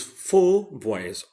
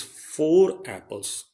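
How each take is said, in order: First: Put-on four boys said slowly with no R in four; silent R. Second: Four apples said slowly with the R linking into apples. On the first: Teacher shows a class four boys without the R. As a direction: drop the R in four before boys. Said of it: "R sound will not be there". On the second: Teacher shows a class linking R in four apples. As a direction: sound the R in four before apples. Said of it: "then R is pronounced". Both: Shown as a demonstration.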